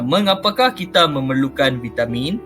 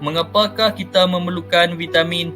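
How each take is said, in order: First: It is read with a questioning intonation. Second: It is read with flat, statement-like intonation. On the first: The speaker calls it right. "intonasi dia lain sikit" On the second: The speaker calls it wrong. "kita tak boleh tak boleh membaca ... macam tu kan"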